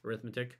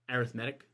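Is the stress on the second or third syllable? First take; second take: second; third. First: The stress is on the second syllable. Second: The stress is on the third syllable. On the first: The word is used as a noun. "Whether arithmetic is a noun" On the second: The word is used as an adjective. "or an adjective"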